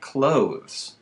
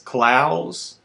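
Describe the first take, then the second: First: The vowel sounds like the one in 'clothes'. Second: The vowel sounds like the one in 'plows'. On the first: The speaker calls it wrong. "not clothes like clothes" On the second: The speaker calls it right. "It's Clowes like plows"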